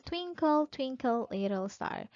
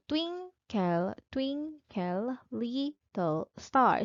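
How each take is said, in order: First: Said in the usual way. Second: Slow "twinkle, twinkle, little star", split into beats with TWIN, TWIN, LIT and STAR stressed; measured, drawn-out "TWIN-kle, TWIN-kle, LIT-tle STAR"; stressed-unstressed rhythm. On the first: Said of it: "let's use again the example". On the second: Shown as a demonstration. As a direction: beat out "twinkle, twinkle, little star" syllable by syllable, alternating strong and weak. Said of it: "arrangement of stressed and unstressed syllables".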